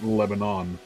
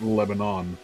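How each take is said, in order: First: The name is said as news reporters say it. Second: The same.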